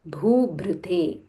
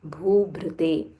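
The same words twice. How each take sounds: Both takes have the same delivery.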